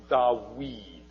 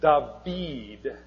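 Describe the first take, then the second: First: Dawid said da-WEED, with a W sound; original W pronunciation. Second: David said da-VEED, with a V sound; modern V pronunciation. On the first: Teacher showing how David was originally pronounced, W sound. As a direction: say "Dawid" with a W in the middle. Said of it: "okay, with a w sound". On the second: Teacher contrasting modern and original Hebrew, modern V pronunciation. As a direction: say "David" with a clear V in the middle. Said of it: "would have been pronounced Dawid". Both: Shown as a demonstration.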